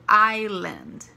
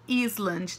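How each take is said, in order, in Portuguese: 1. O S é mudo nessa palavra. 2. O som do S é pronunciado nessa palavra. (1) "você não pronuncia o S" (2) "Não pode falar Island"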